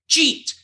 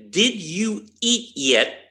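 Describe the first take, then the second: First: The words are squeezed into one short syllable. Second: Each word is said separately and clearly. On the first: "We say" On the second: "he's enunciating each word"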